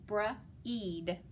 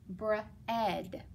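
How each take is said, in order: First: The vowel is a long E sound. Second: The vowel is a short E sound. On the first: The speaker calls it wrong. "the long E, silent A" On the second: The speaker calls it right. "make it a short E, silent A"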